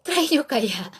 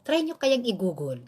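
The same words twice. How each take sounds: First: Louder, higher urging "Try nyo kaya"; stress on Try. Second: Said in the usual way. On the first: Shown as a demonstration. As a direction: push "Try" hard, nudging them. (diin sa "Try", mas malakas at mataas) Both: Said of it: "I-try nyo kaya kung talagang".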